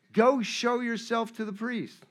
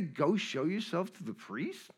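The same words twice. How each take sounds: First: Said in the usual way. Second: Softer questioning repeat, rising at the end; acted baffled question; puzzled echo. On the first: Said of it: "And he says". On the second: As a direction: repeat it back in mock disbelief. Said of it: "Did he just say".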